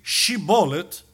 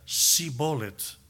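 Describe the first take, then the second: First: The word begins with a 'sh' sound. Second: The word begins with an 's' sound. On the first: The speaker belongs to the group. The speaker calls it right. "aún se esforzara uno para decir Shibolet" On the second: The speaker does not belong to the group. The speaker calls it wrong. "su capacidad fonética no tenía ese sonido, y decía Sibolet"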